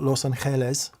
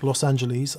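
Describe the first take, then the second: First: It is said with a Spanish pronunciation. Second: It is said with an American pronunciation.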